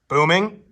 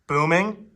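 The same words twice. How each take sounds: No difference in how they are said.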